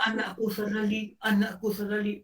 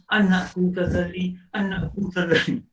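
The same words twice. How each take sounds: First: Higher, softer grieving father; father grieving over his son, higher and softer; softer father's lament. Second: A lightly voiced father, drawn out and mournful; father sighing his son's name, slow and mournful; father's lament. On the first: Acted. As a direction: murmur the son's name, heartbroken and hushed. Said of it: "wah, kau berlakon". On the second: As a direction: call the son's name slowly like a grieving father. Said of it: "Ayah hanya".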